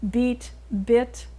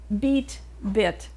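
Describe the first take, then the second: First: Both words are said on one level pitch. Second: The two words have clearly different pitches. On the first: The speaker calls it right. "Make them the same level of tone" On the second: The speaker calls it wrong. "don't go beat, bit, because you're doing something different. You're also changing the prosody"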